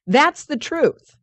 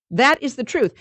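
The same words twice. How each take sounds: First: Slow, weighty stress on "truth"; solemn emphasis; slow emphatic. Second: "That is the truth" with weight on "is"; insistent restatement; stress on is. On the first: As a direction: lean on "That's the truth" slowly. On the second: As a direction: hit "is" firmly. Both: Shown as a demonstration.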